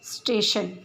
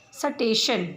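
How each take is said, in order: First: स्टेशन with a tight "स्ट" cluster, no added vowel; स्टेशन said crisply as "स्टेशन"; correct pronunciation. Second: स्टेशन with an extra vowel, "सटेशन"; स्टेशन broken into "स-टेशन"; wrong pronunciation. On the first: (स्टेशन का शुद्ध उच्चारण) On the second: (स्टेशन का अशुद्ध उच्चारण, "सटेशन") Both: Shown as a demonstration. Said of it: "जिस तरह से उच्चारण कर रहे हैं".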